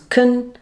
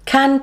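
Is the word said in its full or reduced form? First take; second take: reduced; full. First: The word is said in its reduced weak form. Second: The word is said in its full strong form.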